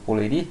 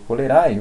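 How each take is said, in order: First: The word ends with an 'ee' vowel sound. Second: The word ends with an 'ae' vowel sound. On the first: The speaker calls it right. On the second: The speaker calls it wrong.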